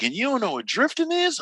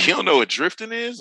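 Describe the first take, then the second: First: Much higher, acted-out disbelief; incredulous question. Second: Higher, imitated disbelieving question; surprised question. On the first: Instructor stunned that a rally fan knows nothing, incredulous. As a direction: imitate an instructor who can't believe it. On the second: Driving instructor quizzing the newcomer about drifting, surprised. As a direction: act out a puzzled instructor checking.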